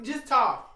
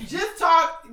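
First: Said in the usual way. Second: Louder, laughing just talk; half-laughing plea to stop; begging through laughter. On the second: Real, not acted.

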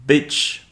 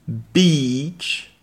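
First: Bitch with a short lax i. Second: Beach with a long ee. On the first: Teacher warning learners, short i in Bitch. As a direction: clip the i in Bitch. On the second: Teacher warning learners, long ee in Beach. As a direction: stretch the ee in Beach. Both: Shown as a demonstration. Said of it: "faut bien faire la différence".

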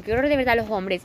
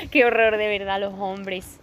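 First: Said in the usual way. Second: Exasperated sigh. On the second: Shown as a demonstration. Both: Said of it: "Es que es una frase que digo mucho".

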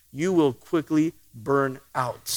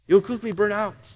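First: Preacher warns the congregation, quiet and slow; low slow warning. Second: Said in the usual way. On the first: Shown as a demonstration.

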